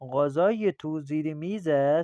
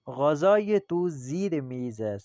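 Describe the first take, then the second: First: The voice rises at the end. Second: The voice falls at the end. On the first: It asks whether the food is there. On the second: It states where the food is.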